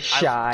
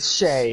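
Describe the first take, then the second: First: The name is said with an 'eye' vowel. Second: The name is said with an 'ay' vowel. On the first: The speaker calls it wrong. "do not say shy" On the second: The speaker calls it right. "Shay, do not say shy"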